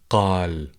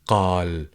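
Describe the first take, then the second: First: The word starts with a deep q sound. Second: The word starts with a deep q sound.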